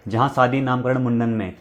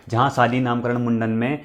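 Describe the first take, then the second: No difference in how they are said.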